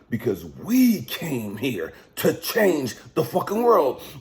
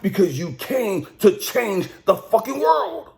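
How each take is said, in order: First: It is said more slowly. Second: It is said at a normal pace.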